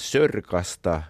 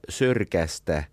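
First: The ending has a back vowel a. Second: The ending has a front vowel ä. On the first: Newcomers from the countryside say it this way. The speaker calls it wrong. "juntit ovat pilanneet stadin slangin, että puhutaan sörkasta" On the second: This is how it should be said in slang. The speaker calls it right. "vaikka pitäisi puhua sörkästä"

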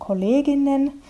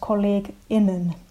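First: The word flows on without a break inside. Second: The word has a short break before -innen. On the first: "ei sanota kollegen und kolleginnen" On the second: "siihen sen feminiini-iin kohdalle tulee semmoinen pysähdys tai painotus"

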